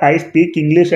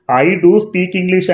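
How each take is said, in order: First: Said in the usual way. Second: Slow, weighted "do" in "I do speak English"; deliberate emphatic "do"; emphatic stress on do. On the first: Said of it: "సాధారణంగా I speak English అంటే సరిపోతుంది". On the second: Shown as a demonstration. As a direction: stress "do" to insist. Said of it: "emphatic sentence అంటాం".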